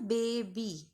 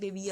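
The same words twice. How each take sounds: First: The final y is said as an ee vowel. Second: The final y is said as a y consonant. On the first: The speaker calls it right. "So it has a sound of E also" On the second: The speaker calls it wrong. "You don't say that, right? That's wrong"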